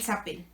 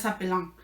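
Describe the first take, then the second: First: The ending is silent, like the singular. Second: The ending is pronounced as a nasal vowel. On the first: The speaker calls it right. "Se dicen nada más como en los singulares" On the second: The speaker calls it wrong. "es una nasal, pues debe ser s'appellant. Y no"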